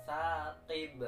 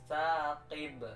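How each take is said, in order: Both takes have the same delivery.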